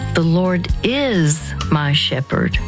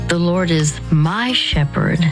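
First: The stress is on "is". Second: The stress is on "my".

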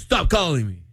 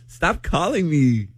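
First: It is said seriously, really meaning it. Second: It is said playfully, not really meaning it.

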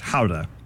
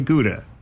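First: It is said the Dutch way. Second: It is said the American way.

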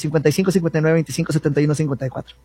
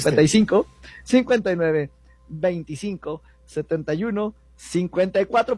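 First: The numbers are said fast. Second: The numbers are said slowly.

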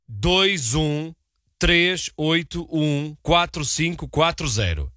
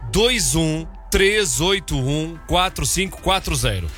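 First: The number is said slowly. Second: The number is said at normal speed.

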